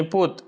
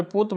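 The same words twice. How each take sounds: First: पूत with a long, pressed ऊ; long stressed oo. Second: Said in the usual way. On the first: Shown as a demonstration. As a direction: stretch the ऊ in पूत with more force. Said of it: "यहाँ दीर्घ लग रहा है". (पूत में ऊ को लंबा और ज़ोर देकर) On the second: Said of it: "यानी पूत".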